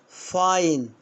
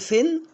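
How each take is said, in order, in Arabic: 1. الحركة هي صوت مركب 'ai'. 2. الحركة هي صوت 'i' قصير. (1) "برافو" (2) "ها أقول فين ولا"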